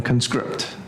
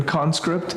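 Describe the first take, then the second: First: Conscript as the verb, con-SCRIPT; stress on second syllable. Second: Conscript as the noun, CON-script; stress on first syllable. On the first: Teacher contrasting noun and verb, conscript stressed con-SCRIPT. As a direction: hit the last syllable of conscript. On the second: Teacher contrasting noun and verb, Conscript stressed CON-script. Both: Shown as a demonstration. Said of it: "where you put the accent".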